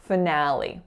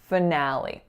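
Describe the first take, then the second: First: It ends in a tense 'ee' vowel sound. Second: It ends in a tense 'ee' vowel sound.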